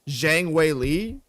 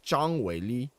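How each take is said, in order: First: The name is said with English pronunciation. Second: The name is said with Chinese pronunciation. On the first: "in English, the way you would pronounce her name would be like" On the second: "the way you pronounce her name in Chinese is like"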